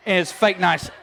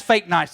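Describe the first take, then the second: First: "fake" hit hard with a falling tune; stressed fake. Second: Said in the usual way. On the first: Shown as a demonstration. Preacher repeats it to the crowd with a mock shout on "fake". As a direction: punch "fake" with a scornful edge.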